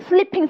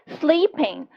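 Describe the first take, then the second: First: The first vowel is short and quick. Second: The first vowel is long and stretched. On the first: The speaker calls it wrong. "빠르게 하면 sleeping, sleeping 하는 게 아니고" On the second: The speaker calls it right. "이렇게 길게 a 소리가 있으셔야 돼요"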